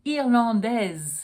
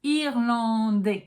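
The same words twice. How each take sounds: First: Slow "Irlandaise" ending in a Z sound; sounded final S. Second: Slow French "Irlandais" ending in "day"; silent final S. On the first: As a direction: voice the S in feminine "Irlandaise". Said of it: "allowed to pronounce the S". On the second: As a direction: say "Irlandais" with no S sound. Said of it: "not allowed to pronounce the S". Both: Shown as a demonstration.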